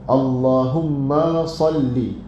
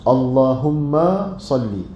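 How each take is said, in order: Both takes have the same delivery.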